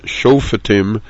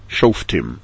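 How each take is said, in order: First: A short vowel separates the f from the t. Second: The f and t run together without a vowel. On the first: "the official way to pronounce the word is Shoftim, with a shvana under the fe" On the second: "rather than the more commonly pronounced shoftim"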